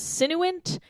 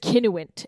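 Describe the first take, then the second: First: The name begins with an S sound. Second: The name begins with a K sound. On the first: The speaker calls it wrong. "she goes by Sin for short" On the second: The speaker calls it right. "it would be Kin for short"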